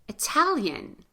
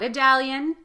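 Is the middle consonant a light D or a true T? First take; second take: true T; light D. First: The middle consonant is a crisp, true T. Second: The middle consonant is a light D sound. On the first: The speaker calls it right. "We say Italian" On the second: The speaker calls it wrong. "not Idalian"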